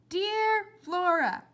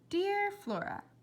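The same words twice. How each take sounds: First: It is said louder and more insistently. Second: It is said at a normal, quieter volume.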